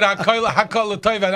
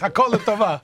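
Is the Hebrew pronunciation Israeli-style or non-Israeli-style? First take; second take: non-Israeli-style; Israeli-style. First: It is said with non-Israeli Hebrew pronunciation. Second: It is said with Israeli Hebrew pronunciation. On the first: The speaker calls it wrong. "I did that before" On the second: The speaker calls it right. "no, it's Hakol Tova"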